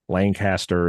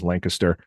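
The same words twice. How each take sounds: First: It is said the way it is spelled. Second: It is said in a local, unspelled way.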